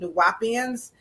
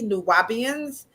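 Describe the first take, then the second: First: The middle consonant is a P sound. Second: The middle consonant is a B sound. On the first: The speaker calls it wrong. "not a P" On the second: The speaker calls it right. "with a B, not a P"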